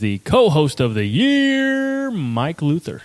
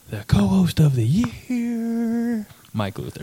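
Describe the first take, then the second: First: It is said loudly with big inflection. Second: It is said softly and quietly. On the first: "doing the inflection on that" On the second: "Do like a quiet version of it"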